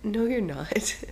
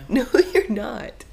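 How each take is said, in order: First: Lightly raised playful denial; playful contradiction. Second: Loud, high, drawn-out denial; emphatic contradiction. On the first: Host teasing co-host about fast talking, contradicting. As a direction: contradict them with a lift in pitch. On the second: Host teasing co-host about fast talking, emphatically insisting. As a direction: insist slowly, pitch and volume jumping up. Repeats denial, more forcefully. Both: Real, not acted.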